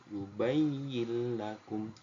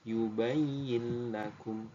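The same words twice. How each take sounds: The two takes are said the same way.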